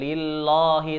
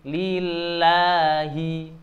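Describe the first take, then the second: First: The vowel in 'lah' is cut short. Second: The vowel in 'lah' is held for two counts. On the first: The speaker calls it wrong. "bukan lillahi" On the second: The speaker calls it right. "lafal Allah dibaca dua harokat"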